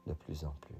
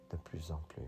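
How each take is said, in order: Both takes have the same delivery.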